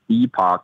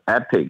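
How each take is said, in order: First: The word ends with a full 'ock' sound. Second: The word ends with a short 'ick' sound. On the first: "someone pronounce it as epoch" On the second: "someone pronounce it as epic"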